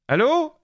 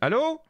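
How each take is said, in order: First: The voice is loudest and clips slightly. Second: The voice is quietest, with the smallest boost. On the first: "je tente un boost de dix décibels" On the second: "je tente un boost sur le micro de cinq décibels"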